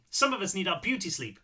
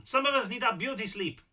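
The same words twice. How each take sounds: First: Put-on higher-pitched complaint without the borrowed accent; lightly voiced grumpy neighbour; complaining retake. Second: Put-on high-pitched complaint in a character's borrowed accent; accidental character accent, raised pitch; Seth's accent. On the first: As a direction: grumble it in a raised voice, accent dropped. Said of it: "I don't know why I did that in Seth's accent". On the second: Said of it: "I did that in Seth's accent". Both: A narrator's reading.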